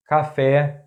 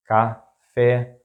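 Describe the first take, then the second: First: Café as one word, stressed on final FÉ; stress on accented syllable. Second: Café split in two, ca - fé; syllable by syllable. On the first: Teacher giving an example word, café stressed on last syllable. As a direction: say café joined up, landing on FÉ. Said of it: "the stressed syllable is that one". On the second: Teacher breaking down an example word, café in separate syllables. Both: Shown as a demonstration.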